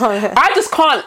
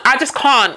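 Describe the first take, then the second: First: Laughing through I just can't. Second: Said in the usual way. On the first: Real, not acted. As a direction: giggle while saying it. Laughing, then repeated plainly.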